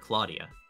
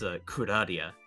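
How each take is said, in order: First: The name is said with English-style sounds. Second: The name is said with Japanese-style syllables. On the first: This is how English speakers usually say it. "But we just call her Claudia" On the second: This is how the Japanese voice actors say it. "they pronounce her mother's name as"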